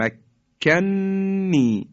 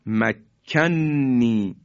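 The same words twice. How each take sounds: First: مکنی drawn out slowly with both shaddas heavily pressed; very slow, doubled stress. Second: مکنی drawn out very slowly on a doubled ن; slow recited makkanni. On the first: Teacher stressing the two shaddas in مکنی. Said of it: "دو تا تشدید". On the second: Quran teacher drawing out مکنی. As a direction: stretch مکنی with a held doubled ن. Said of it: "یا کلمهٔ". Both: Shown as a demonstration.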